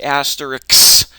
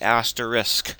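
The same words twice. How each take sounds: First: The word ends with a 'ks' sound. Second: The word ends with an 'sk' sound. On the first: The speaker calls it wrong. "Some people pronounce it asterisk, but that's backwards" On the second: The speaker calls it right. "It's spelled S K, so it's asterisk"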